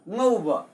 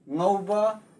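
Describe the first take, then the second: First: The word is said with a falling tone. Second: The word is said with a rising tone. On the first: It means to fry. "that is used as falling tone" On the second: "When shown up used as rising tone"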